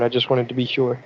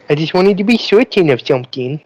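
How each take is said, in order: First: Said in the usual way. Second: Higher, playful put-on voice. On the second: Player restating why they spoke out of turn, put-on voice. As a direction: repeat it in a higher, silly voice. Repeats own line in put-on voice.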